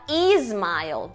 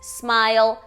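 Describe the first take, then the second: First: An extra vowel sound comes before the s. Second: The word starts directly with the s. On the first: The speaker calls it wrong. "a gente tem a tendência de falar smile" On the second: The speaker calls it right. "Se a palavra começa com S, é com S"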